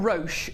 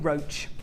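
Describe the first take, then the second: First: It is said the French way, like 'rosh'. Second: It is said like the English word 'roach'. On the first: The speaker calls it wrong. "It's definitely not Roche, which is the French one" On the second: The speaker calls it right. "it's definitely Roach"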